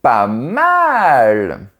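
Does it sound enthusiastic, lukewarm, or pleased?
enthusiastic. It sounds enthusiastic and strongly impressed. It is great. "je pense que c'est super"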